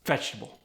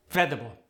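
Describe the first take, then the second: First: Said in the usual way. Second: "Vegetable" shortened to veh-duh-bul; Khmer-style "Vegetable" as veh-duh-bul; fewer syllables. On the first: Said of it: "extra syllables". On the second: Shown as a demonstration. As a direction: drop the extra syllable from "Vegetable". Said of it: "eliminate some of the extra syllables".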